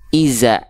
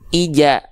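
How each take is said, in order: First: The middle consonant is a 'z' sound. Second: The middle consonant is a 'j' sound. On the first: "banyak orang melafalkan jadi zai, Salah" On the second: "Atau jadi huruf jim"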